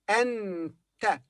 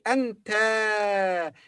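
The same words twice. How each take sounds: First: The final vowel is short. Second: The final vowel is long. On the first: The speaker calls it right. "it's short vowel" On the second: The speaker calls it wrong. "We don't say anta because this is not a long vowel"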